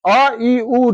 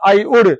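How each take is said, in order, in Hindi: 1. केवल स्वर बोले जाते हैं, अंत में कोई व्यंजन नहीं। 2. स्वरों के बाद अंतिम व्यंजन भी बोला जाता है। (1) "तो कैसे बोलते हैं?" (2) "ऐसे होता है, लेकिन वैसे नहीं बोलना है"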